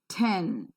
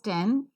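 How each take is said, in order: First: The t has a puff of air. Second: The t has no puff of air. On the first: The speaker calls it right. "but is pronounced as ten. That's right" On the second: The speaker calls it wrong. "is not pronounced just as ten, as non-native speakers pronounce"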